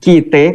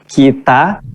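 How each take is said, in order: First: Betawi pronunciation ending in an e sound. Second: Standard Indonesian pronunciation ending in an a sound. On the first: "kata orang Betawi" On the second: "kalau dibawa di bahasa Indonesia asli maka bunyinya kita"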